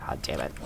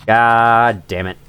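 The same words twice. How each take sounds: First: Very low, barely audible grumble; muttered curse. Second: Drawn-out, low-pitched swearing; slow exasperated curse. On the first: Gamer learning ten kills are needed, muttered curse. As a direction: swear under your breath. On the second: Gamer facing a fetch quest, slow exasperated curse. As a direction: stretch each word out in resignation. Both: Real, not acted.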